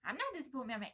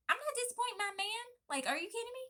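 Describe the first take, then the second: First: Said in the usual way. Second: Much higher and louder, hyped up; fired up. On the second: Acted. Pregnant wife hyping herself up over her husband's support, fired up. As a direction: pump yourself up, almost squealing.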